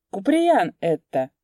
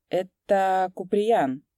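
First: Louder, slower cheerful repeat of Куприян. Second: Said in the usual way. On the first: A narrator's reading. Coachman cheerfully repeats the name to the sergeant. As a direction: say it again gleefully, louder. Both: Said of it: "весело повторил ямщик".

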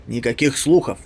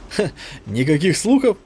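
First: Said in the usual way. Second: A short "ha", then a questioning echo; scoffing laugh. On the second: A narrator's reading. Soldier mocking his comrade's claim of no rumours, lightly laughing. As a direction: toss "слухов" back as an amused question. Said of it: "рассмеялся Менбер".

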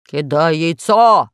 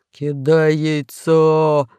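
First: Slow, loud "Кидай яйцо!" with a falling end; mock monster bellow "Кидай яйцо!"; Pashka shouting. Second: Very slow, rasped "Кидай яйцо!" stretching "кидай"; hoarse drawn-out "Кидай яйцо!"; hoarse croak. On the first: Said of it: "крикнул Пашка". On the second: Acted. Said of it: "прохрипел весельчак У".

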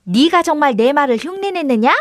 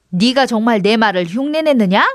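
First: Higher-pitched copycat question; lightly voiced goat mimic; mimicking goat. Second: Mildly marvelling, rising question; a touch of amazement; amazed question. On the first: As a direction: echo the question as a little talking goat. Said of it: "염소가 입을 나불거리며 그대로 흉내를". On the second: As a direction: ask in wonder, lifting the end. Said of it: "동생은 신기해하며". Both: A narrator's reading.

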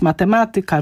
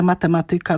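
First: Matematyka stressed on MA, mateMAtyka; correct stress. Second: Matematyka stressed on TY, matemaTYka; wrong stress. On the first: Professor gives the required matematyka, stress on MA. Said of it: "musi być". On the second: Professor shows the matematyka that grates on her ears. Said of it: "mnie uszy więdną". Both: Shown as a demonstration.

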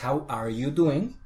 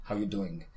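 First: "How are you doing" slow, with ARE clearly said; "are" fully pronounced, unhurried; full form. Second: "How you doing" with "are" dropped; casual "How you doing", words linked without "are"; quick reduced form. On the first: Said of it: "Que en realidad es". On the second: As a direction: run "How you doing" together, lower. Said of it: "por decirlo rápido, se quita". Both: Shown as a demonstration.

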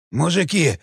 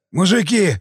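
First: Moaning in pain. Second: Wailing. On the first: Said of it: "простонал раненый". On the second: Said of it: "завопил Вава". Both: A narrator's reading.

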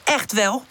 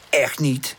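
First: Higher, cross contradiction with rising end; mildly angry comeback; angry retort. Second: Mildly cross denial; understated huffy contradiction; angry. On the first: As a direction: fire back in a squabble. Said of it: "Woezel kijkt boos naar haar om". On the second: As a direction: deny it with a touch of anger. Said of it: "zegt Pip boos". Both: A narrator's reading.

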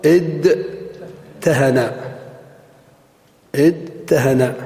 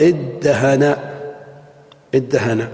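First: ادهن said as "idtahana" with separate d and t, drawn out; ادهن as "idtahana", the theoretical form; unassimilated original form. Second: ادهن said as "iddahana" with a doubled d; ادهن as the Arabs said it, "iddahana"; assimilated form. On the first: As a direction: stretch ادهن slowly, keeping both d and t. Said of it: "الأصل". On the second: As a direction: merge the d's in ادهن into one long d. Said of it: "فقالت العرب". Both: Shown as a demonstration.

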